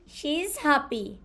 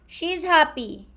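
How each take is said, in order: First: She and is are said as separate full words. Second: She and is merge into one contracted syllable.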